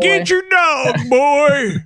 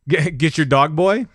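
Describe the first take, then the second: First: It is yelled like a grumpy old man. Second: It is said plainly, as a question.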